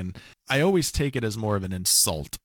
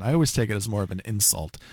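First: It is spoken with a noticeable put-on accent. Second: It is spoken in the speaker's ordinary voice.

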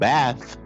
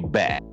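First: The word ends with a th sound. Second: The word ends with a t sound. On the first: "Instead of saying bath" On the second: "they say bat"

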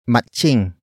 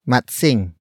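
First: The middle consonant sounds like 'ch'. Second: The middle consonant sounds like 'ts'. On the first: "Some Tagalog speakers would pronounce it as matching" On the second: "The next word is matsing"

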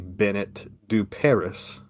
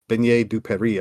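First: The first name ends with a clear t sound. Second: The first name ends with an 'ay' vowel. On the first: This is an Americanized version of the name. The speaker calls it wrong. "I've heard people say Bennett du Paris" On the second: This is the original French form of the name. The speaker calls it right. "but it's actually Beignet du Paris"

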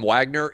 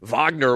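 First: The name begins with a W sound. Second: The name begins with a V sound. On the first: The name is said the American way. The speaker calls it right. "shouldn't they just call him Wagner?" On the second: The name is said the German way. The speaker calls it wrong. "pronouncing the W as a V"

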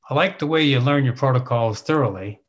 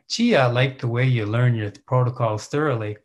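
First: It sounds like a plain, matter-of-fact statement. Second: It sounds like gushing, smarmy praise.

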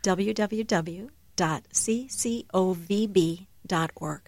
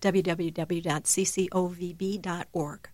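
First: It is said more slowly. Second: It is said at normal speed.

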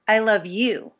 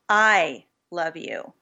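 First: The stress falls on the word you. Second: The stress falls on the word I. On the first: It is this person, rather than anyone else, who is loved. "implying, no, it's you who I love" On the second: It is the speaker, rather than somebody else, who loves. "which basically implies that maybe I compared to somebody else"

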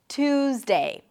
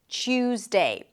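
First: It starts with a plain aspirated t sound. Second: It starts with a ch sound. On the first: "you can also drop the Y sound and then just connect the T to the U" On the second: "the T is that it changes a little bit and becomes a Ch sound"

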